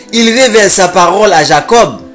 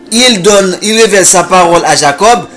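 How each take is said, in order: Both takes have the same delivery.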